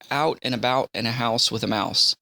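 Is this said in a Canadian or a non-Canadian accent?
non-Canadian. The vowels are said in a non-Canadian accent. "Me, I say"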